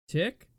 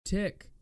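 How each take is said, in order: First: Louder questioning TICK, rising; raised volume. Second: Said in the usual way. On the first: Acted. Actor retrying a take at changed volume, TICK louder and rising. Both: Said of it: "changing the volume of my voice".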